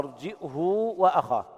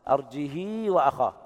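First: A glottal stop, then h with a long u. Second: The h is followed by a long i vowel. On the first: "يثبتون الهمز بين الجيم والهاء مع ضم الهاء وصلتها بواو لفظية" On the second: "كسر الهاء مع الصلة"

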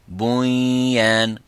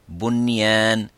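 First: The n merges nasally into the following y. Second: The n is pronounced clearly and separately. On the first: The speaker calls it wrong. "Au lieu de dire sinwan ou bunyan" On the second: The speaker calls it right. "vous dites"

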